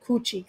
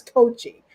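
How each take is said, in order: First: Coochie, said with an oo as in "cooch"; the mistaken Coochie, oo vowel, chee at the end; wrong name. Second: Coachy, said with a long oh as in "coach"; the right name Coachy, coach plus ee; correct name. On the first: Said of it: "I kept calling him Coochie accidentally". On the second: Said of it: "I think it's Coachy". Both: Shown as a demonstration.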